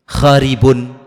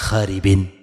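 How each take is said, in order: First: The word ends with an -un sound. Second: The word ends with an -in sound. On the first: The ending follows the regular grammar rule. "Pakai dhamma" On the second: The ending follows the neighbouring word. "Tapi dibaca kasrah"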